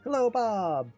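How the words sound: It is said in a bright, happy tone. "this big, bright and happy guy"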